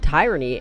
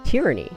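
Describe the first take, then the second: First: The first vowel sounds like in 'tyrant'. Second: The first vowel differs from 'tyrant'. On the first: The speaker calls it wrong. "So I said tyranny" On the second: The speaker calls it right. "it's pronounced tyranny"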